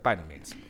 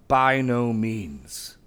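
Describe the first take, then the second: First: The phrase is said quickly and lightly. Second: The phrase is said slowly and heavily. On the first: It is only a mild denial. The speaker calls it wrong. "it's too light" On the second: It is the strongest possible denial. The speaker calls it right. "If you say it like that, like weighty, it gets it"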